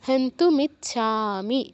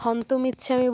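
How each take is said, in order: First: It is said with a 'u' after 'hant'. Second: It is said without a 'u' after 'hant'. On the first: The speaker calls it right. "এখানে উকারও আছে" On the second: The speaker calls it wrong. "হন্তমিচ্ছামি বললে হবে না"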